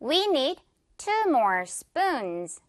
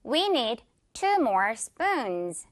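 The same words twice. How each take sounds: First: Slow model drill. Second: Slow model repeat. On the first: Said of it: "갑니다". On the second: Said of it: "one more time". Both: Shown as a demonstration.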